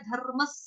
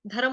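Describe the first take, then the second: First: धर्मस with a short half r, closing on s. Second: Said in the usual way. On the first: Shown as a demonstration. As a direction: roll the r straight into mas in धर्मस. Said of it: "रफार वाला र आधा है". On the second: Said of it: "धर्म होता ना धर्म".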